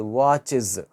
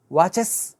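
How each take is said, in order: First: వాచెస్ said as "watchiz" with a falling end; correct pronunciation. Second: వాచెస్ said as "watches" with a final es and a rising end; వాచెస్ mispronounced with an es ending; wrong pronunciation. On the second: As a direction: show the wrong వాచెస్ with a hissing es. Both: Shown as a demonstration.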